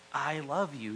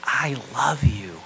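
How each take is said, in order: First: Said in the usual way. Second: Slow, loud and heartfelt; a full-weight declaration of love; tender declaration. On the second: Shown as a demonstration. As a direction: say it slowly like a vow. Preacher voices key gospel words.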